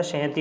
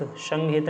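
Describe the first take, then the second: First: सहति ending in a sounded i, ha-ti; correct form. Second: संगहित ending in a short i, hit; nasal ng before the h in संगहित; wrong form. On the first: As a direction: say सहति with the i after the t. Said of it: "सहति होता है". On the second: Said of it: "संगहित नहीं होता". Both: Shown as a demonstration.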